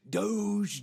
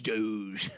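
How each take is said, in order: First: Doge sung out high and bright, falling at the end; high playful chant. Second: Doge dropped low and falling; low playful drop. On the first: Host hyping the coin to viewers, high playful chant. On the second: Host hyping the coin to viewers, low playful drop. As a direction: answer the chant with a low "Doge". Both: Acted.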